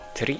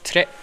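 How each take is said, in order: First: The vowel sounds like 'ee'. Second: The vowel sounds like 'eh'. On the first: The speaker calls it wrong. "I always thought it was tri" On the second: The speaker calls it right. "but no, it's tre"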